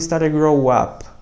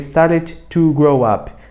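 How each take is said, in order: First: The word 'to' is dropped into a smooth link. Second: The word 'to' is pronounced with a separate beat. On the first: The speaker calls it right. "Para não ter esse intervalo" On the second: The speaker calls it wrong. "started to vai ficar muito essa tá, tá, tá, tá"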